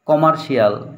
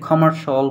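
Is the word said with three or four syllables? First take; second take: four; three. First: The ending is said as separate syllables, 'shi-al'. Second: The ending is merged into one syllable, 'shal'. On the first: This is the habitual local way of saying it. The speaker calls it wrong. "এতদিন আমরা বলে আসছি" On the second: This is the way it should be said now. The speaker calls it right. "এখন আমাকে কমার্শাল বলতে হবে"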